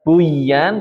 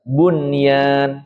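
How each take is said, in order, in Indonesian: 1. Bunyi n menyatu dengan y. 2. Bunyi n diucapkan dengan jelas sebelum y. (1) "Bukan dibaca buyan" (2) "Nunnya jelas"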